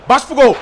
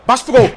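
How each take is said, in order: Both takes have the same delivery.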